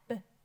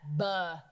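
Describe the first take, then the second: First: The b is a short burst with no vowel. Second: The b is followed by an added uh vowel. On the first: The speaker calls it right. "Did you notice how I clipped off putting in any sort of an uh?" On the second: The speaker calls it wrong. "I wouldn't say"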